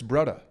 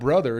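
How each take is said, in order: First: The middle consonant is a D sound. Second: The middle consonant is a TH sound. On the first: "Hawaiians do that too" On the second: "it's not brother"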